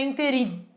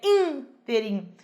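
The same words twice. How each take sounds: First: The stress falls on the last syllable. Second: The stress falls on the first syllable. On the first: The speaker calls it wrong. "não é interim" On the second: The speaker calls it right. "é interim. É uma palavra proparoxítona"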